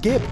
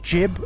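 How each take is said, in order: First: The word begins with a hard G sound. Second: The word begins with a soft J sound. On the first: This is the pronunciation everyone commonly uses. "everybody said gib, so that's what we say" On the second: This is the technically correct pronunciation. "the technical pronunciation is jib, as in giblets"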